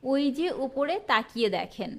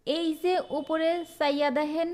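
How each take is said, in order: First: Standard তাকিয়ে, দেখেন with a clear "kh"; careful Bengali with full "kh" in দেখেন; standard form. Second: Higher voice, চাইয়া with an "s" onset; দেখেন softened to "dehen", dialect style; regional dialect. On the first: Teacher gives the standard version of the sentence, standard pronunciation. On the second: Teacher reads out a regional sentence, dialect pronunciation. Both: Shown as a demonstration. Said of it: "এটার প্রমিত রূপ কি হবে?".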